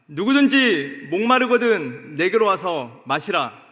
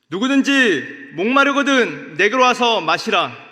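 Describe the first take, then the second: Both takes have the same delivery.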